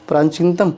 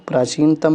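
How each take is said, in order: First: प्राचीनतम with an added n, "praanchintam"; incorrect form. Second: प्राचीनतम with no n before ch; correct form. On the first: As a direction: nasalise the first vowel of प्राचीनतम. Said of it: "इधर हमारा अशुद्ध". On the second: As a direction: say प्राचीनतम as "praa-cheen-tam". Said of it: "इधर शुद्ध रूप है". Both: Shown as a demonstration.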